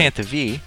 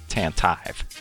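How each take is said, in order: First: The last syllable has a long 'teev' sound. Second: The last syllable has a short 'tiv' sound. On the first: The speaker calls it wrong. "But you would not say" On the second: The speaker calls it right. "Maybe you would say Tantive"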